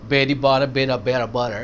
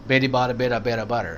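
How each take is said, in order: The two takes are said the same way.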